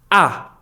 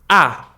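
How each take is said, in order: First: The pitch is short and sharp. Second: The pitch is short and sharp.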